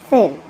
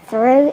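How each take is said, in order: First: The word is said with no r after th. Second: The word is said with an r after th. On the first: The speaker calls it wrong. "it's thu to them" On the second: The speaker calls it right. "Instead of through"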